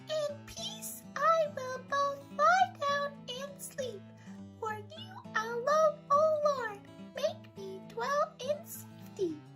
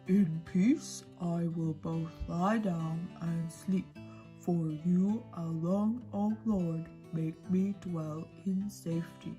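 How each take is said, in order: First: It is said in a high squeaky voice. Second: It is said in a deep monster voice.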